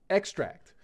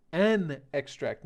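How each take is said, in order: First: Teacher putting weight on TRACT in "extract"; verb stress. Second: Teacher stressing EX in "extract"; noun stress. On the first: Teacher to students contrasting verb stress, ex-TRACT. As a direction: stress on "extract" second syllable, ex-TRACT, raised and loud. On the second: Teacher to students showing noun stress, slow EX-tract. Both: Shown as a demonstration. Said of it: "Notice the difference in pronunciation".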